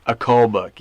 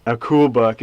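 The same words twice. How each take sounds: First: "cull" with a rounder vowel, correcting "cool"; correcting the word. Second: Put-on buck said with cool as in "cool", the kid's word; "cool" with an oo vowel, as the boy said it; echoing the mishearing. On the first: Shown as a demonstration. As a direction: say "cull" clearly, not "cool".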